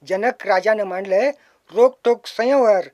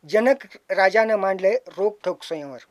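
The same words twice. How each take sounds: First: Louder recital. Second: Said in the usual way. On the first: Shown as a demonstration. Poet reciting his Ramayana remake, louder and fuller. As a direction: lift it louder at the end.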